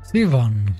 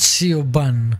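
First: The name sounds like Sivan. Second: The name is read out as it is spelled. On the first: The speaker calls it right. "Siobhan is pronounced Sivan" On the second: The speaker calls it wrong. "not Siobhan"

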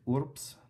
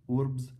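First: The consonant before the s sounds like p. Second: The consonant before the s sounds like b. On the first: The speaker calls it right. "would be correct" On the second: The speaker calls it wrong. "would be incorrect"

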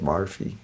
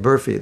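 First: The word is said in a Scottish-style accent. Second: The word is said in a plain accent. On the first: "they say Barfi" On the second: "They don't say Burfi"

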